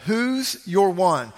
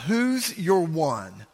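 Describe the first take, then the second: First: Slow emphatic repeat. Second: Said in the usual way. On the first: Shown as a demonstration.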